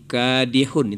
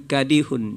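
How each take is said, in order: First: The first vowel is held long. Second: The first vowel is cut short. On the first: The speaker calls it right. "itu yang benar" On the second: The speaker calls it wrong. "K-nya dipendekkan"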